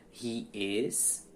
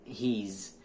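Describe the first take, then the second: First: "he is" as two separate words; full form. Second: "he's" in one syllable, HEEZ; contracted form. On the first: Teacher contrasting full and contracted forms, "he is" in two syllables. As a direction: sound "is" fully after "he", uncontracted. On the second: Teacher contrasting full and contracted forms, "he's" as one syllable. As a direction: run "he" and "is" together as "he's". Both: Shown as a demonstration. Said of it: "forma contraída ou contracta".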